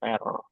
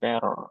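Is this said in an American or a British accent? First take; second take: American; American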